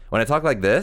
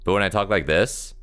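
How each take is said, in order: First: The voice is higher pitched and strained. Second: The voice is deeper and relaxed.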